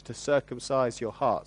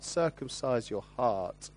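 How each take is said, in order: First: Said in the usual way. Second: "Circumcise your heart" said slowly and deliberately, each word weighed; slow emphatic repeat. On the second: Shown as a demonstration.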